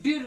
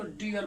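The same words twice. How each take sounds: First: डियर clipped to one short syllable, like dir; wrong way. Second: डियर in two clear syllables, di-ar; right way. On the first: Teacher showing students the wrong way, डियर as one clipped syllable. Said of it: "इसको हम लोग डियर नहीं बोलेंगे". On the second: Teacher giving students the correct form, डियर as di-ar. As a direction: open डियर out into di then ar. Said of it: "इसको डियर बोलेंगे". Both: Shown as a demonstration.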